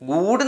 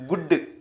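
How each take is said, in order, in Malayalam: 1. സ്വരം ദീർഘമാണ്, 'goood' പോലെ. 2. സ്വരം ഹ്രസ്വമാണ്, 'good' പോലെ. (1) "ഗൂഡ് എന്ന് വായിക്കില്ല" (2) "ഗുഡ് എന്നാണ് വായിക്കുക"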